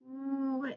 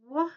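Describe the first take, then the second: First: A rounded ooh sound with tight lips. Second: An open wah sound with the mouth wide. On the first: The speaker calls it right. "It's more of a ooh, ooh sound" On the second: The speaker calls it wrong. "I made that wah sound and that's not right"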